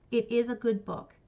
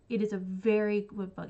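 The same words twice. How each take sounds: First: "is" pressed louder with a falling close; stress on is. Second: Said in the usual way. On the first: Real, not acted. Conceding to viewers the book is good, "is" stressed.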